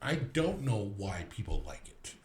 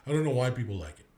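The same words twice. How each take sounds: First: Slow emphatic repeat. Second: Quick, dismissive brush-off; fast dismissive. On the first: Repeating the Wicked verdict slowly in disbelief. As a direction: drag out "don't" in disbelief. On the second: Walked out of Wicked, brushing it off fast. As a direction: rattle it off like you're done with it. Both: Shown as a demonstration.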